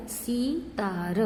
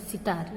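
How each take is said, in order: First: सीतार with the ई drawn out long and slow; सीतार said slowly, holding the first vowel long; stretched long ee. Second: सितार with a quick, clipped short इ. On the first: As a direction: drag out the ई in सीतार, the wrong long way. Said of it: "उसे ज़्यादा आपको लंबा नहीं खींचना है". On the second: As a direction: say सितार with the first vowel kept short. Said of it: "तो हम सिर्फ ई बोलेंगे". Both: Shown as a demonstration.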